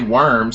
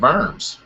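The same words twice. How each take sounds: First: It is pronounced like the English word worms. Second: It is pronounced the German way, like Vorms. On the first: The speaker calls it right. "say Worms" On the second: The speaker calls it wrong. "instead of Worms"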